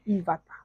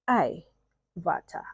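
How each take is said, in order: First: The name is said as one run-together word. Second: A separate 'I' sound comes before 'vata'. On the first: The speaker calls it wrong. "please don't do the mistake of saying Ivata" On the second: The speaker calls it right. "The I is the first letter of her full name, then Avatar"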